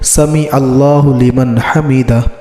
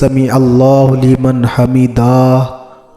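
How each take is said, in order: First: The ending is short and clipped, not stretched. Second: The ending is drawn out and given a vowel. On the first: The speaker calls it right. "हा को साकिन पढ़े ... दाल को भी खींच कर न पढ़ा जाए" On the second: The speaker calls it wrong. "ये गलत तरीक़ा है"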